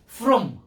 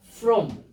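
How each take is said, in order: No difference in how they are said.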